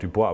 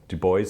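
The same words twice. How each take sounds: First: The name is said with a French pronunciation. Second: The name is said with an English pronunciation. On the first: This follows the name's French origin. The speaker calls it wrong. "the French uh, pronunciation" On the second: This is how the man himself wanted it said. The speaker calls it right. "Du Bois insisted on that pronunciation"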